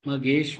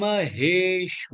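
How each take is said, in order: First: The h sound is weak and barely breathed. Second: The h sound is strongly breathed from the throat. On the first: The speaker calls it wrong. "மகேஸ்வ இல்ல" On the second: The speaker calls it right. "ஹே தொண்டையிலேருந்து வரணும்"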